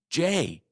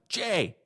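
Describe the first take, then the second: First: The name is said in a loud voice. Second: The name is shouted very loudly.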